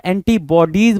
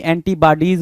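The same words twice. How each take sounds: First: एंटीबॉडीज with a rounded aw sound, anti-baw-dees; correct pronunciation. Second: एंटीबॉडीज with a flat a sound, anti-bah-dees; wrong pronunciation. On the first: Teacher gives students the right way, anti-baw-dees. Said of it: "ना कि एंटीबॉडीज बोलते हैं". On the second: Teacher shows students the mistaken way, anti-bah-dees. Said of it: "आपको पता है एंटीबॉडीज बोलते हैं". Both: Shown as a demonstration.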